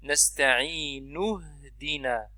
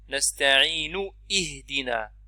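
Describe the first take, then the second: First: The words run together with no glottal stop. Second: A glottal stop is sounded before ihdina. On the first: The speaker calls it right. "Si on lit directement, elle ne sera pas prononcée Hamzat Wasl" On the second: The speaker calls it wrong. "On ne dit pas نستعين اهدنا. Ça c'est faux"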